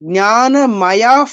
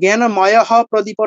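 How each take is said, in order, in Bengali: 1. বিসর্গ হলো f-এর মতো একটা শ্বাসযুক্ত ফুঁ। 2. বিসর্গটা পুরো h ধ্বনির মতো উচ্চারণ হয়। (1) "একটা বাতাস বের হচ্ছে।" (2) "'হ' না কিন্তু জ্ঞানময়ঃ প্রদীপঃ না। এরকম কিন্তু না।"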